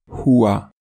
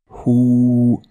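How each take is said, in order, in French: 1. Le mot est prononcé dans sa forme complète liée. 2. Le mot est prononcé dans sa forme courte de pause. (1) "sans faire de pause" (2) "comme si on faisait une pause"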